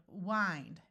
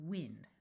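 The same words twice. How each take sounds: First: "wind" with an "eye" vowel; long I. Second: "wind" with a short "ih" vowel. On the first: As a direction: wind rhyming with "kind". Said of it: "I N D has a long I sound". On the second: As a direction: wind rhyming with "pinned". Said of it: "this can also be the word". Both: Shown as a demonstration.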